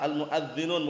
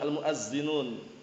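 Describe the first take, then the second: First: The middle consonant is a soft 'th' sound. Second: The middle consonant is a plain 'z' sound. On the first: The speaker calls it right. "yang tepat nah pakai dzal bukan pakai zai" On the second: The speaker calls it wrong.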